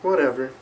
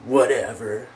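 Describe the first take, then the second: First: It sounds dismissive and uncaring. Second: It sounds sad and disappointed. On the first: The speaker does not care. "whatever can mean I don't care" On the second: The speaker is upset by the news. "I might say it like that. So whatever can mean like, ugh"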